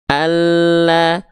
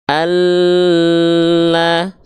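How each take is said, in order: First: The double L is pressed briefly, not held. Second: The double L is held for too long. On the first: The speaker calls it right. "Cukup ditekan" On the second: The speaker calls it wrong. "nggak Allah, salah"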